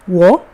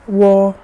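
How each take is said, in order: First: The pitch rises from mid to high. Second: The pitch stays high and level. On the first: "if it's the second one" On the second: "if it's the first one"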